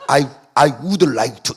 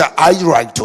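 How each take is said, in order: First: Very slow, each word spelled out; slow full form. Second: Said in the usual way. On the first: Shown as a demonstration. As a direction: drag out every word of I would like to. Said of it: "이래 안 하잖아요". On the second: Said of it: "영어도 이제".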